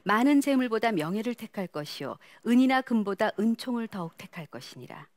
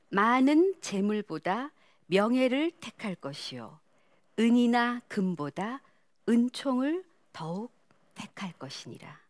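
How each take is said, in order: First: It is read quickly, at a fast pace. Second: It is read slowly, each word clearly articulated. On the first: "또 빨리 읽어 보세요" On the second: "천천히 또박또박"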